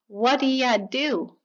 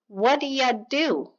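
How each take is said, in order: First: The words are reduced and blended together quickly. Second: The words are reduced and blended together quickly.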